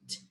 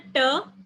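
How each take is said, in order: First: The t is made the English way. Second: The t is made the Hindi way. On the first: The speaker calls it right. "but in English it's t" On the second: The speaker calls it wrong. "So it's not a t"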